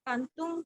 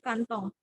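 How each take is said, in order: First: It is said in the standard form. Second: It is said in the colloquial form. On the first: The speaker calls it right. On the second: The speaker calls it wrong.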